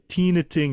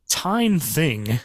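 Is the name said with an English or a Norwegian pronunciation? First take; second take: Norwegian; English. First: The name is said with Norwegian sounds. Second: The name is said with English sounds. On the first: This is how the name is really said. "is the pronunciation for this, or close to it anyway" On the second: It would suit a movie star's name. "use the English pronunciation"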